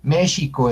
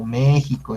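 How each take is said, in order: First: México with x as sh, "MEH-shee-co"; Nahuatl pronunciation. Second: México with x as a Spanish j, "MEH-hee-co"; ordinary "México" with j sound; everyday Spanish pronunciation. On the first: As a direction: say "México" with a sh in the middle. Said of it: "debe de pronunciarse". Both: Shown as a demonstration.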